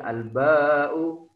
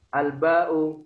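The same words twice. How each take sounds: First: The vowel after the b is held long. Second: The vowel after the b is short. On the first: The speaker calls it right. "tapi alba'u. Dua harokat" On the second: The speaker calls it wrong. "Maka tidak boleh"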